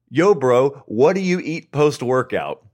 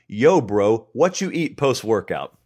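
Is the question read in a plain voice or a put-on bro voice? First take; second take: plain; bro voice. First: It is read in a plain, ordinary reading voice. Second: It is read in a put-on, casual bro voice. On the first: The speaker calls it wrong. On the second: The speaker calls it right.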